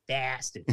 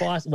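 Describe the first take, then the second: First: "Boston" with a flat a, like BASS-tin; "Boston" said with the wrong, flattened first vowel; mispronounced Boston. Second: "Boston" as BAW-stin in a local accent, higher. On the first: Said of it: "We gotta correct something real quick". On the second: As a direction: punch the AW in "Boston" like a Boston native. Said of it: "the Boston accent, right, it's B A W". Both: Shown as a demonstration.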